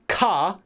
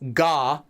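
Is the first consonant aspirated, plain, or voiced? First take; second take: aspirated; voiced. First: It starts with a strong, breathy K sound. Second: It starts with a voiced G from the throat. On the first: "I'm not saying ka, ka, like it's not a K" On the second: "I'm not saying ga, ga, right? I'm not doing that g, g sound"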